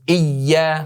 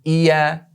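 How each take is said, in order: First: The y sound is held long and doubled. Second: The y sound is short and single. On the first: The speaker calls it right. "Jadi harus iya" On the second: The speaker calls it wrong. "bukan iya"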